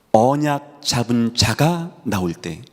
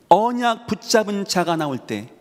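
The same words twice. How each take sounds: First: Slow, stress on 자가; slow emphasis. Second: 언약 hit higher with a falling tune; stress on 언약. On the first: Preacher slows to press 자가 home. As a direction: lean slowly on 자가 with a falling tune. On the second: Preacher repeats the line, punching 언약. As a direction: lift and punch 언약. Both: Shown as a demonstration.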